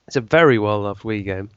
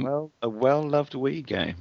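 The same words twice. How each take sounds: First: Said in the usual way. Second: Slow, teasing repeat; mocking echo. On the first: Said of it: "S1 echoes the phrase". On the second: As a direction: drawl it back teasingly. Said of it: "repeats it mockingly".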